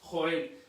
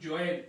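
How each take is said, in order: First: The name is pronounced the Spanish way. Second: The name is pronounced the English way. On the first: "nosotros los castellanos... lo que decimos es Joel" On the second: "es una manera anglosajona de poder hablar"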